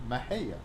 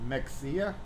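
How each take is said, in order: First: The middle consonant is said as 'h'. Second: The middle consonant is said as 'ks'. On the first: The speaker is a local who knows the name. The speaker calls it right. "its proper pronunciation, Mahia" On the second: The speaker is a stranger who reads the name as spelled. The speaker calls it wrong. "How would you say that? Mexia"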